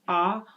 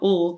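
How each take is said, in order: First: An open vowel with no L sound. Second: A short weak vowel followed by L. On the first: "it's not just ah" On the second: "or ul"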